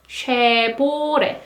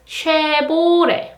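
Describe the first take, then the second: First: It is said with Korean sounds, V becoming B. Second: It is said with Korean sounds, V becoming B.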